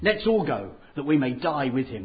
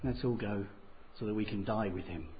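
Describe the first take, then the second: First: It is said in a bold, courageous tone. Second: It is said in a gloomy, melancholy tone. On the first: The speaker is brave about going. "There's a little bit of courage there" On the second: The speaker expects the worst. "A little bit of, I don't know, melancholy"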